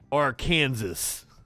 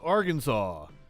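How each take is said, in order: First: The name is pronounced the way foreigners say it. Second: The name is pronounced the usual local way.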